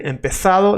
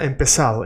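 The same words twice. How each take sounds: First: "empezado" with a TH for the Z; Castilian TH in the middle of "empezado"; Spain pronunciation. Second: "empezado" with the Z as an S; Latin American pronunciation. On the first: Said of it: "Spain, empezado". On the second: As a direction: say "empezado" with a plain S sound. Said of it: "Latin America, empezado". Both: Shown as a demonstration.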